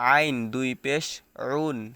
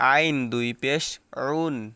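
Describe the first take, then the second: The two takes are said the same way.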